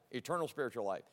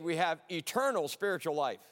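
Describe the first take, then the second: First: Much softer and lower, "Eternal" leaned on; quiet emphatic echo. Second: Said in the usual way. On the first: Shown as a demonstration. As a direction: repeat it softly to drive it home.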